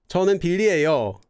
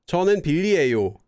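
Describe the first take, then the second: First: The ending is softened to a 'yeo' sound. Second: The ending is the standard 'yo' sound. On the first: The speaker sounds softer, cuter or more polite. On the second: The speaker uses the standard neutral form.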